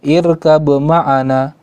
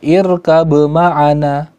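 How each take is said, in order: Both takes have the same delivery.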